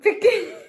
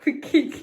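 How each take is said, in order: First: Said in the usual way. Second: في الكيك said through a laugh. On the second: Real, not acted. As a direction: giggle while repeating في الكيك. (بتضحك وهي بتقول في الكيك)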